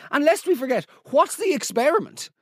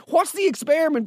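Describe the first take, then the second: First: Higher-pitched disbelieving question; can't believe the experiment; incredulous. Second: Incredulous. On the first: Incredulous rant. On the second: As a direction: still higher, laughing disbelief. Laughing incredulous repeat. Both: Real, not acted.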